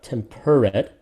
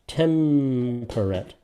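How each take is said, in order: First: The second syllable is stressed. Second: The second syllable is unstressed. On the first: The speaker calls it wrong. "not temperate" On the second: The speaker calls it right. "So per is definitely unstressed"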